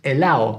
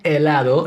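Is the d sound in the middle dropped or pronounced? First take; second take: dropped; pronounced. First: The d sound in the middle is dropped. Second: The d sound in the middle is pronounced. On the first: "lose those D's as well" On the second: "It's not helado"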